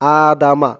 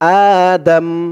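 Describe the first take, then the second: First: The word ends with a final a vowel. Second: The word ends on the consonant m. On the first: The reading does not stop at this word. "আদামা এমন উচ্চারণ ছিল" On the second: The reading stops at this word. "অক্ফ করার কারণে মিমের উপরে জবরটা সাকিন হয়ে যাবে, উচ্চারণ হবে আদম"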